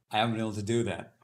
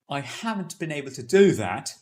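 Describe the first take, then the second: First: Quick, run-together "haven't been able to"; fast slurring of "haven't been able" into short forms; mishmashed words. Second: Every word of "haven't been able" spoken out in full, louder; British RP, "I haven't been able to do that" fully articulated; full forms. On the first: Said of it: "they will eventually mishmash things into one". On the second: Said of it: "you use full forms wherever possible". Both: Shown as a demonstration.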